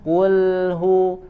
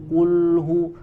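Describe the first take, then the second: First: The L sounds thin, lips unrounded before hu. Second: The L sounds thick, lips rounded throughout. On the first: The speaker calls it right. "kembalikan dulu bibirnya" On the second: The speaker calls it wrong. "jangan manyun dari huruf qaf lam sampai hu ... akan tebal"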